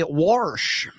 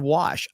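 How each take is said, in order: First: "wash" with an R put in, "warsh"; dad's Southern pronunciation. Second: Said in the usual way. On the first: Retold or imitated. Reading how a Southern dad says it, "wash" as "warsh". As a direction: say "wash" as a drawn-out "worsh". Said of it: "My dad would say wash instead of wash". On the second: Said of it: "instead of wash".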